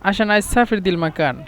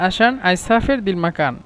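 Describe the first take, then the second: Both takes have the same delivery.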